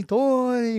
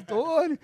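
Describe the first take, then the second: First: Echoing dream call. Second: A higher, softer, floating call of the name; dreamy echoing call. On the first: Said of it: "a voz ecoou na minha cabeça assim". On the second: Calling his name as a distant voice in a dream, dreamy and echoing. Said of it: "igual um sonho". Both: Retold or imitated.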